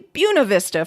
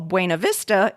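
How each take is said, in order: First: It is said the way local Iowans say it. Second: It is said the way outsiders say it. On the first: "is apparently Buena Vista for Iowans" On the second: "what non-Iowans would call Buena Vista"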